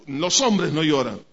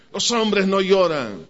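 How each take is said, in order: First: Said in the usual way. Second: Slow, drawn-out mock macho dad; mock stern father. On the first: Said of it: "¿qué se nos decía?". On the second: Father telling his sons that men don't cry, slow mock sternness. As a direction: lay down the rule like a stern father, slowly.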